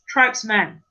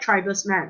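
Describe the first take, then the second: First: The letters 'es' add no extra syllable. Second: The letters 'es' are sounded as an extra syllable. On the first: The speaker calls it right. "You don't pronounce the E S" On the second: The speaker calls it wrong. "not tribesman"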